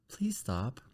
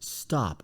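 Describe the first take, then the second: First: It sounds weak, like asking permission. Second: It sounds strong and assertive, like an order.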